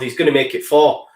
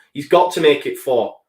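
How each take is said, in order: First: Said in the usual way. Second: Got leaned on, falling at the end; stress on got. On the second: Shown as a demonstration. Fan at his desk insisting the striker must score, stress on got. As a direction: press hard on got.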